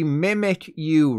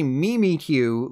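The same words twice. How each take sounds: First: The name begins like the word 'mimic'. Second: The name begins like the name 'Mimi'. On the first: The speaker calls it wrong. "it mimics Pikachu, which means it should be Mimikyu" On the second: The speaker calls it right. "It's actually Mimikyu, like Mimi from the Drew Carey Show"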